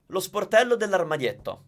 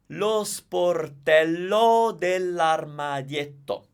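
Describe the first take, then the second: First: It is said at a natural, fast speed. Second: It is said slowly and carefully.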